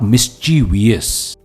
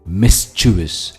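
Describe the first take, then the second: First: The word is said with four syllables. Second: The word is said with three syllables. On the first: The speaker calls it wrong. "Not मिस्चीवियस" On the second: The speaker calls it right. "मिस्चिवस and not"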